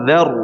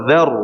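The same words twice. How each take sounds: No difference in how they are said.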